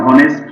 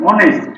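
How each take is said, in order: First: হনেস্ট said with a spoken h at the start; হনেস্ট with the h pronounced, shown as wrong; wrong pronunciation with h. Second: অনেস্ট said with no h, starting on the vowel, pitched up for emphasis; অনেস্ট with a silent h, shown as right. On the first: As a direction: sound the h in হনেস্ট, as the mistake. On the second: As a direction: drop the h in অনেস্ট and stress it as the correct form. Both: Shown as a demonstration. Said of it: "এখানে হনেস্ট না".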